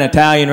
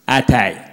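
First: Said in the usual way. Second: "Italian" said as Eye-talian, dropping lower; small-town mispronunciation. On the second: Retold or imitated. Mocking the small town's new restaurant, "Italian" mispronounced as Eye-talian. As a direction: say "Italian" with a long "eye" at the front.

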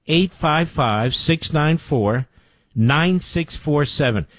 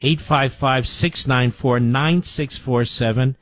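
First: Each digit slow and deliberate; slow emphatic number read; slow, spelled-out phone number. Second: Said in the usual way. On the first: Shown as a demonstration. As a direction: read it out slowly so listeners can dial. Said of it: "second, slower read of number". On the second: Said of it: "repeats the number slower".

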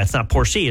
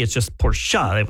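First: Porsche said the wrong way, with a final ee sound; Porsche with an added ee at the end. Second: Porsche said slowly, one syllable, no final vowel; Porsche clipped short, no ending ee; right Porsche. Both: Shown as a demonstration.

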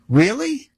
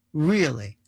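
First: "Really?" pitched up, rising at the end; questioning REALLY. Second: "Really?" softer, with a falling tune; doubting REALLY. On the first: Answering people who call it ridiculous, rising challenge. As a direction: throw "Really?" back as an open question. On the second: Answering people who call it ridiculous, falling doubt. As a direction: let "Really?" drop as quiet doubt. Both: Acted.

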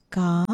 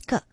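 First: "ka" with a long open vowel, as in car. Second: "ka" with a short vowel, as in cup. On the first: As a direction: hold the vowel of "ka". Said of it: "the third syllable is a long sound". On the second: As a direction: cut "ka" short, like the start of cup. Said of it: "It's a short sound". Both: Shown as a demonstration.

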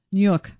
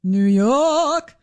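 First: Short, quick New York delivery; understated New York accent; toned-down New York accent. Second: Drawn-out New York vowel in YORK; New York accent, long R-less YORK. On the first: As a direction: toss off New York lightly, lower. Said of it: "she toned that one down". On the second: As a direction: stretch out a New York "Yawk". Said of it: "Didn't get the real Linda". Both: Shown as a demonstration.

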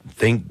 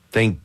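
No difference in how they are said.

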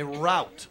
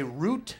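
First: "route" rhyming with "out"; ROWT pronunciation. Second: "root" rhyming with "boot"; ROOT pronunciation. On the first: Comic contrasting how people say the word, "route" like out. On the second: Comic contrasting how people say the word, "root" like boot. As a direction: say "root" with a long OO. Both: Shown as a demonstration. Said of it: "Sometimes it's just pronunciation".

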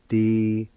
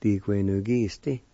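First: "Diquenukiste" in separate syllables, louder start; broken-up teaching take of "Diquenukiste"; syllable-by-syllable demo. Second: "Diquenukiste" as one connected word; whole-word teaching take of "Diquenukiste"; joined-up pronunciation. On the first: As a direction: sound out "Diquenukiste" with long gaps. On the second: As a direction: blend the syllables of "Diquenukiste". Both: Shown as a demonstration. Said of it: "It's pronounced like this".

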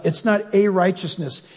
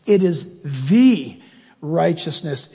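First: "a" said as a full, stressed "ay". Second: Slow, with "the" held before "righteousness"; stress on THE. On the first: Preacher contrasting the article, stressing "a". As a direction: lean on "a" in "It's not a righteousness". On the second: Preacher stressing "the" against "a". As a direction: pause after a weighty "the". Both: Shown as a demonstration. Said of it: "You should circle the word".

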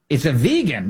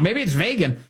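First: "vegan" with a long ee, VEE-gun; correct pronunciation. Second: "vegan" said VAY-gun, higher pitched; high, joking VAY-gun for "vegan"; mock mispronunciation. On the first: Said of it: "how to pronounce that thing". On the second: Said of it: "making up his own pronunciation". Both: Shown as a demonstration.

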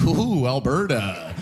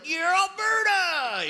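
First: Low, drawn-out mock dismay; mock outsider's unease. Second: Very high, drawn-out mock cheer; hammed-up Alberta pride. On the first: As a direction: draw it out low, pretending to wince at the place. Outsider looking in at Alberta. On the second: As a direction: whoop it long and high as a proud local. Albertan seen from inside province.

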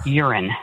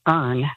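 First: Urn turned into urine; two syllables, YUR-in, for urn; mispronounced word. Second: Urn as one syllable; urn, no vowel between r and n; correct word. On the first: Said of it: "I said urine". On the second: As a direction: say urn as a single syllable, like earn. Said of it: "instead of saying urn". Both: Shown as a demonstration.

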